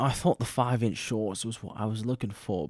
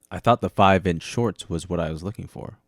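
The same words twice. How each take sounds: First: It is said in a put-on British accent. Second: It is said in a plain, unaffected accent.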